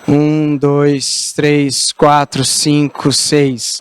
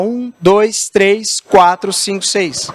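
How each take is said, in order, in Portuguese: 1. A voz soa arrastada e pesada, como se estivesse deitado. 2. A voz soa em movimento, como quem fala enquanto anda. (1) "Se eu estou deitado no sofá, eu vou falar assim com você, que eu estou largado no sofá. Tudo isso aqui pesa" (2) "Andando na rua"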